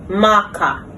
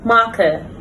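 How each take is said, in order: First: The ending is an open ah vowel. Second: The ending is a short weak vowel. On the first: The speaker calls it wrong. "commonly mispronounced" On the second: The speaker calls it right. "correct pronunciation"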